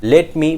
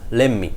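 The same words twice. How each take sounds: First: "Let me" slow, with a clear t; full form. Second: "let me" as "lemme", no t; reduced form. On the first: Teacher names the original phrase, slowly. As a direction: sound the t in "Let me". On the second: Teacher shows what it becomes, reduced. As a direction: double the m in "let me". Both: Shown as a demonstration. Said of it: "Let me becomes let me".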